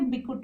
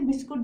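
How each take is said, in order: First: The word drops its 's' sound. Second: The word keeps its 's' sound. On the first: The speaker calls it wrong. "अब वो बोलेंगे बिकुट" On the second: The speaker calls it right. "आप वो ऐसे नहीं बोलेंगे कि मुझे बिस्कुट"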